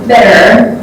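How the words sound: It is said in an American accent. "American people pronounce better"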